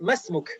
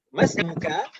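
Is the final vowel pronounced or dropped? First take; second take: dropped; pronounced. First: The final vowel of the last word is dropped. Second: The final vowel of the last word is pronounced. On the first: This is the casual form used in conversation. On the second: This is the full form used while learning.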